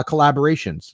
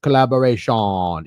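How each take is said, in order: First: Said in the usual way. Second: Playful put-on Jamaican accent. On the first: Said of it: "hard not to say it in". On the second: Shown as a demonstration. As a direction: draw out the ending in a mock Jamaican accent. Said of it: "like, a Jamaican accent".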